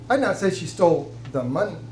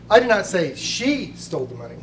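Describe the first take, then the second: First: The word 'money' carries the main stress. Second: The word 'she' carries the main stress. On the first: Something other than the money was taken. "She may have stole something, but it wasn't the money" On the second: Someone else took it. "You're saying that it was stolen by someone else"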